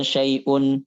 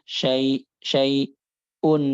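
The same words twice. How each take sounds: First: SYAI'UN joined, with a clean catch before "un"; measured hamzah. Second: SYAI'UN slow, long gap, then forced "un"; exaggerated hamzah. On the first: Teacher gives the proper word, measured hamzah in SYAI'UN. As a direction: say "syai'un" without forcing the hamzah. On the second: Teacher shows the wrong reading, overdone hamzah in SYAI'UN. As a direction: stall after "syai-", then shove out the "un". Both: Shown as a demonstration.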